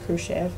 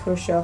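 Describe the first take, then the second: First: It is said with an English-style middle sound. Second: It is said with the Russian middle sound. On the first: "Americans just pronounce it as Khrushchev" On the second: "So for all you Russians there, it's Khrushchev"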